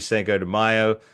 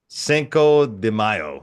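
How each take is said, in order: First: It is said in a plain American accent. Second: It is said in an attempted Spanish accent. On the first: The speaker calls it wrong. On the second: The speaker calls it right.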